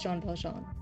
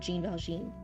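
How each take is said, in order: First: Jean is said the French way, like 'zhahn'. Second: Jean is said the English way, like 'jeen'. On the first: The speaker calls it right. "I think they pronounce it John" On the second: The speaker calls it wrong. "it's not Jean Valjean"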